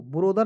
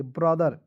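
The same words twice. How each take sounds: First: ब्रोदर with a long open "o" in the first syllable; wrong pronunciation. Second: ब्रदर with a short, quick first syllable; correct pronunciation. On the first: Teacher shows students the wrong reading, ब्रोदर with a long "o". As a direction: say ब्रोदर the wrong way, stretching "bro". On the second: Teacher gives students the right reading, ब्रदर said short. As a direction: say ब्रदर crisply, short "bra". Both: Shown as a demonstration. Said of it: "ब्रोदर नहीं पढ़ेंगे".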